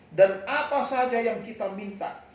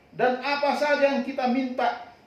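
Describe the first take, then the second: The two takes are said the same way.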